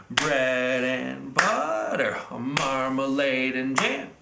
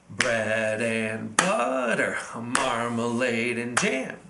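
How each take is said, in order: Both takes have the same delivery.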